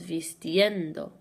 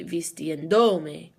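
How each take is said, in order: First: Slow "vistiendo" with the stress on "en", second to last syllable; "vistiendo" drawn out, emphasis falling on "en"; natural stress on EN. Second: Slow "vistiendome" with a loud "do"; "vistiendome" drawn out, emphasis moved onto "do"; shifted stress on DO. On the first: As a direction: lean on the "en" in "vistiendo". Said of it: "that's where the natural emphasis falls". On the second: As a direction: punch the "do" in "vistiendome", second to last syllable. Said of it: "second to last syllable is now do". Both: Shown as a demonstration.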